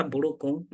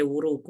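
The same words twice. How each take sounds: First: Buruku with a plain B sound. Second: Wuruku with W replacing the B. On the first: Teacher giving the word for trouser, buruku with B. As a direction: keep the B closed in buruku. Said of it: "using B as it is". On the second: Teacher showing learners what cannot be said, wuruku with W. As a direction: round the lips into W to start wuruku. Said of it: "You cannot say wuruku". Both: Shown as a demonstration.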